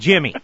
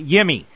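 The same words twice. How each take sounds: First: The J at the start is sounded. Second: The J at the start is silent. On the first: "as opposed to" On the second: "the silent J, like we've been taught to do"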